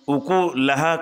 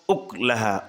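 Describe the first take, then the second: First: A u vowel follows the k sound. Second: No vowel follows the k sound. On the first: "उकुलहा को" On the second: "काफ को बिस्सुकून पढ़ेंगे"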